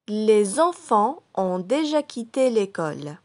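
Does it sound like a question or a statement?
statement. It is said with statement intonation. It states a fact.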